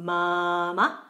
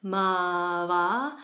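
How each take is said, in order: First: "Mama" with stretched first vowel, short second; long then short. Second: "mava" with two stretched vowels; both syllables long. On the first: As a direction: hold the first syllable of "Mama", cut the second. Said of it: "second ma is very short". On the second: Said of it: "both syllables are long". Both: Shown as a demonstration.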